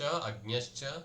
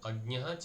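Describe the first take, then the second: First: The words are joined, with an 'sh' before 'cha'. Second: The words are separate, ending in a breathy 'h'. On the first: The words are joined by sandhi. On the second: The words are split apart.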